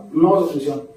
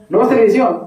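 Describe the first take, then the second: First: Said in the usual way. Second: High-pitched order; voiced command. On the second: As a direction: lay down the rule in a raised pitch. God's order, then own obedient answer.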